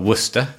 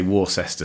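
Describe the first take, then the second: First: The word is said the British way. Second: The word is said the American way.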